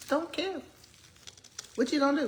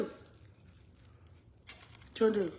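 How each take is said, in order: First: Higher, breezy "so what" toss-off; tossed-off "What you gonna do?" with a lifted voice; shrugging defiance. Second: Very slow breathy whisper; drawn-out hushed "What you gonna do?"; whispered echo. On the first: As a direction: throw it away like you don't care. Defiant about eating with hands. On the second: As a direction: repeat it to yourself under your breath. Echo of the line before. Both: Real, not acted.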